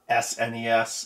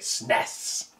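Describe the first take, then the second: First: Each letter of the acronym is said separately. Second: The acronym is said as one single word. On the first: The speaker calls it wrong. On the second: The speaker calls it right.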